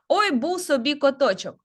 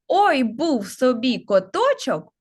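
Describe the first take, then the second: First: It is spoken at a fast pace. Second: It is spoken at a normal pace. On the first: "А тепер спробуємо з вами швидко" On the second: "Спочатку я вам прочитаю"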